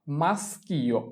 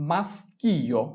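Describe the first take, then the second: No difference in how they are said.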